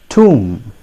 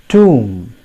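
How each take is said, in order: No difference in how they are said.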